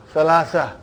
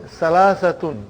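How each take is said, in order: First: Salasa ending on open -a, falling; ending dropped. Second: Salasatun with the final -tun sounded; full ending -tun. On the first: Teacher giving the word students will hear, Salasa without ending. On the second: Teacher giving the full form of three, Salasatun with its ending. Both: Shown as a demonstration. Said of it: "you will always hear the word".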